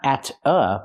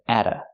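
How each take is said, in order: First: The T is clear and separate from the vowel. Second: The T is a quick D linking the vowels. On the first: The speaker calls it wrong. "Not at a" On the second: The speaker calls it right. "The T is pronounced as a fast D"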